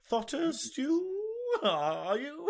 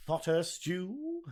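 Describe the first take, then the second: First: Stu and you swung much higher and slow, a big questioning lift; exaggerated question rise. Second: Stew lifted up as if asking; rising like a question. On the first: Shown as a demonstration. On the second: Real, not acted. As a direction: end Thotter Stew on an upward question tune. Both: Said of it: "I went up at the end there, like it was a question".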